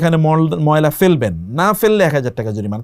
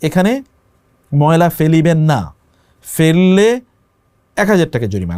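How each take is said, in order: First: The pause comes right before 'na'. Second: The pause comes right after 'na'. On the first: Not throwing garbage here is what gets fined. The speaker calls it wrong. "আপনি পড়লেন" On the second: Throwing garbage here is forbidden and fined. The speaker calls it right. "লেখা আছে"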